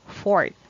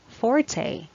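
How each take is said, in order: First: The word is said with one syllable. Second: The word is said with two syllables. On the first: It means the strongest part of a blade. "Next pronunciation is simply fort" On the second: It means one's strong point. "the first pronunciation is forte"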